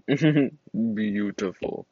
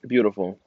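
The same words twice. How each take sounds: First: BEAUTIFUL stretched very slowly; slow, savoring Beautiful; drawn out. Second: Said in the usual way. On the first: Real, not acted. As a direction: draw out every syllable of Beautiful. Repeats the word drawn out.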